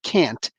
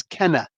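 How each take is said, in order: First: Said in the usual way. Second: "Kenna" said short with a falling tune, Scottish style; "Kenna" as the Scottish can't. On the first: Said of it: "Not can't". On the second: Shown as a demonstration. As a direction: say "Kenna" as a Scot would, stressed first syllable. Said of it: "the one who says".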